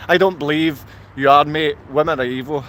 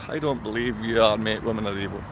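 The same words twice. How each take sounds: First: Said in the usual way. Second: Low, quiet mocking murmur of the troll's words; mocking repeat. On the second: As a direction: lower and much softer, a mock mumble.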